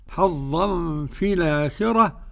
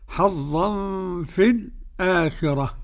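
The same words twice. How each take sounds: First: The glottal stop is dropped and its vowel carried back. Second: A brief silent break comes before the glottal stop. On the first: "النقل" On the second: "والسكت"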